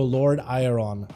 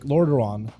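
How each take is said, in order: First: The name is sounded out letter by letter. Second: The name is said smoothly as one word. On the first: "like a Russian trying to learn that word" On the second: "is an English version"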